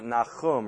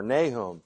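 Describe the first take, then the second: First: Nahum as nah-KHOOM; Hebrew pronunciation. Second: Nahum as NAY-hum; English pronunciation. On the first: Bible teacher naming the prophet, Hebrew pronunciation. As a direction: say Nahum with "ah" and a throaty kh. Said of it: "that's how his name is pronounced in Hebrew". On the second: Bible teacher giving the familiar name, English pronunciation. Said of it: "In English, it's Nahum". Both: Shown as a demonstration.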